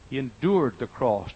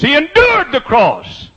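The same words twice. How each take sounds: First: Said in the usual way. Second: Much higher, louder, slow drawn-out endured; full preaching cry. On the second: Shown as a demonstration. Preacher crying it out to the congregation, drawn out and loud. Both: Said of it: "Didn't say he shouted through the cross".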